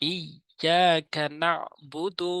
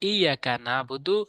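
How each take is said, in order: First: The 'y' sound is held and pressed hard. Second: The 'y' sound is short and light. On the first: The speaker calls it right. "চাপ দিয়ে বলতে হবে, ইয়া শক্ত করে" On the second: The speaker calls it wrong. "অধিকাংশ সাধারণ মানুষ যেগুলো ভুল করে"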